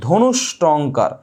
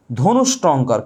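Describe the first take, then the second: First: ধনুষ্টঙ্কার drawn out very slowly, syllable by syllable; slow and deliberate. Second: Said in the usual way. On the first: Shown as a demonstration. Teacher repeats the exam word for students, very slowly. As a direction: spell ধনুষ্টঙ্কার out slowly with your voice so it sticks. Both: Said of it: "কি বলেছি?".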